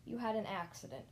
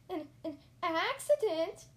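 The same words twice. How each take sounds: First: Said in the usual way. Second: Slow, loud, high stammer of shock; aghast, halting, rising high. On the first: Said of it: "said the doctor". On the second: A narrator's reading. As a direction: stumble into a squealed question. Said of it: "I stammered".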